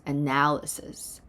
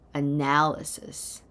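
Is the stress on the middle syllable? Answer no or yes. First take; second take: yes; yes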